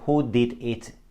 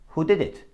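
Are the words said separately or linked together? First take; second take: separately; linked. First: Each word is said separately and fully. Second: The words run together without breaks. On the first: "Instead of saying" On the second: "he says"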